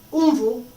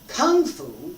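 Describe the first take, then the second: First: It is said with a Mandarin Chinese pronunciation. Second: It is said with an American English pronunciation. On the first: The speaker calls it right. "No, Kung Fu. Different" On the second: The speaker calls it wrong. "We pronounce it, American English"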